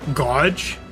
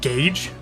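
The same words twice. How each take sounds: First: The vowel is said like in 'gouge'. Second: The vowel is said like in 'gage'. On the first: The speaker calls it wrong. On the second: The speaker calls it right.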